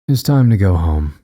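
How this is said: It is said coolly and calmly.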